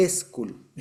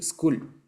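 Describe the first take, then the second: First: School as es-KUL, leading with a clear e; Spanish-speaker pronunciation. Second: School with nothing before the s; English pronunciation. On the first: Teacher showing what Spanish requires, school as es-kul. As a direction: put a long e in front of school. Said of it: "Meterle una E". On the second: Teacher showing what English allows, school with bare initial s. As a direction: say school as skool, straight into the s. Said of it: "En inglés es posible decir". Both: Shown as a demonstration.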